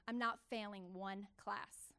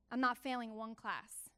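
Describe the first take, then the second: First: I'm "not failing one class", slow, with weight on "not"; slow resolute promise to herself; slow determined vow. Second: Said in the usual way. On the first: Retold or imitated. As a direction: lay it down slowly like a vow. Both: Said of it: "this is what I told myself".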